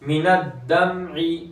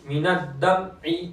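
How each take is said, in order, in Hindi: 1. m की आवाज़ रुकती है और जारी रहती है। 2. m की आवाज़ पूरी तरह बंद हो जाती है।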